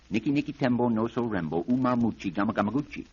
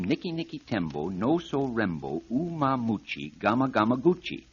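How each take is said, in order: First: The name is said very fast. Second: The name is said at normal speed.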